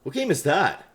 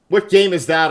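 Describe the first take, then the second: First: Said in the usual way. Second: Louder, higher mocking echo; mock quote. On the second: Repeats his question to chat in a mocking voice. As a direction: throw his own question back, teasing.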